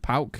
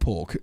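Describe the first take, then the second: First: The vowel sounds like 'ow' in 'cow'. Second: The vowel sounds like 'or' in 'pork'. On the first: The speaker calls it right. "Pauk, like that, yeah" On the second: The speaker calls it wrong. "Not pork"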